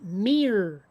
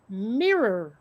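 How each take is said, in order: First: It is said as one syllable, like meer. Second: It is said as two syllables with both vowels. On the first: The speaker calls it wrong. "I think that people pronounce it like M E A R or M E E R" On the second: The speaker calls it right. "but it's it's mirror"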